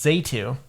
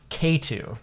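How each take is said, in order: First: The name begins with a Z sound. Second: The name begins with a K sound. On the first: The speaker calls it wrong. "that is not how you pronounce it" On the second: The speaker calls it right. "It's actually pronounced K two"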